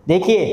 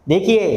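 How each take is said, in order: The two takes are said the same way.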